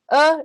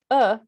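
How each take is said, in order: First: "Uh" said with full stress, a little stronger. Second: Light, reduced "uh" without stress; unstressed uh. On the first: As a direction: give "Uh" the weight of a stressed syllable. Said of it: "is always stressed". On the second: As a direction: say "uh" as a weak schwa. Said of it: "is always unstressed". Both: Shown as a demonstration.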